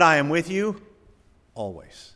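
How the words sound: The stress is on "always".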